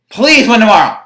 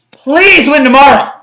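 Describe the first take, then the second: First: Said in the usual way. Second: Louder, slow begging plea; desperate plea; pleading. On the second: Real, not acted. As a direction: beg the team to win.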